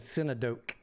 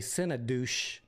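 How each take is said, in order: First: The word ends with a hard k sound. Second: The word ends with a soft sh sound. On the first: The speaker calls it right. "Is it a hard? I'm thinking synodoke is the word" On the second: The speaker calls it wrong. "Some people would say synodouche, but I don't think it's synodouche"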